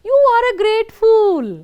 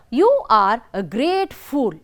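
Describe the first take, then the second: First: It is said as a strong exclamation. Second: It is said as a plain, calm statement.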